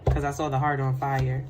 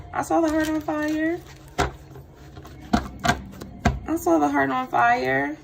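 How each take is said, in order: First: Said in the usual way. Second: "saw" lifted high and rising; emphatic repeat. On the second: Shown as a demonstration. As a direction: insist "I saw the heart on fire" with "saw" raised. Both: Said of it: "repeated with emphasis".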